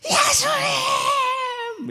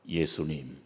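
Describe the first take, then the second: First: It is said loudly, with a raised voice. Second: It is said quietly, without raising the voice.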